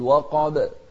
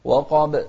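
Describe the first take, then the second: First: The final b ends with a short echoing bounce. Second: The final b ends with a short echoing bounce.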